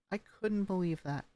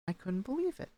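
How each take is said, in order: First: Disappointed falling. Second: "believe" rises in pitch, an amazed lift; amazed, voice rising on "believe". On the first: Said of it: "you show disappointment when you go down". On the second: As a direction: let "believe" climb up. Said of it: "rises right there". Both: Shown as a demonstration.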